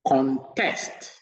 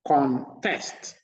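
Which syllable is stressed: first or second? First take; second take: second; second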